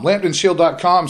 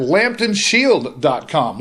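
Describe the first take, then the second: First: Said in the usual way. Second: Slow web address, each word spaced; slow, deliberate. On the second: Shown as a demonstration. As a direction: draw it out so it sticks.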